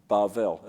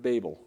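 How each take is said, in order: First: The name is pronounced the Hebrew way. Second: The name is pronounced the English way. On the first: "as they would pronounce it" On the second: "Babel in English"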